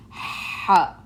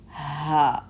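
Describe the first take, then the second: First: Ha like fogging glasses; breathy ha. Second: ح, ha rasped from the back of the throat; ha scraped in the throat; raspy ha. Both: Shown as a demonstration.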